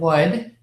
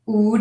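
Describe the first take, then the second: First: The word begins with a W sound. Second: The word begins with an oo vowel. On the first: The speaker calls it right. "instead of" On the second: The speaker calls it wrong. "an oo"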